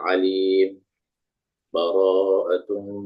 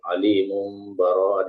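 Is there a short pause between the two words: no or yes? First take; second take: yes; no. First: A brief silent stop separates the two words. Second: The two words are joined without a break.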